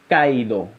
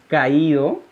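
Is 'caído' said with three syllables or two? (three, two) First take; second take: two; three. First: The a and i merge into one syllable. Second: The a and i are in separate syllables. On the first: "Fonéticamente se está uniendo la A y la I" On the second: "aquí tenemos un hiato"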